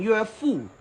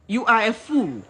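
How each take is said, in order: First: Said in the usual way. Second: Are spelled out and hit hard; stress on are. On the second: Shown as a demonstration. A ranter in Ghana insults a man, stressing are. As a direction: punch "are" in "You are a fool".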